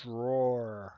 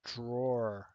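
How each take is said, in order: First: "Drawer" said as one syllable, DROR; "Drawer" rhyming with "door". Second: "drawer" said as DRAW-er, two syllables; "drawer" as someone who draws; draw-er, a person. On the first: Teacher pronouncing the furniture word for students, one-syllable DROR. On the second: Teacher pronouncing the person meaning for students, two-syllable DRAW-er. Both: Shown as a demonstration. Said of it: "Is it a drawer or a drawer".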